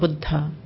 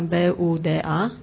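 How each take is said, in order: First: The d is followed by a puff of breath. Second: The d is plain, with no breath after. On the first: "es con aspiración" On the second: "en español decimos Buda como si fuera B-U-D-A"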